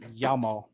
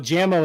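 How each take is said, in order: First: The name begins with a Y sound. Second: The name begins with a J sound. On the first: The speaker calls it right. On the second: The speaker calls it wrong.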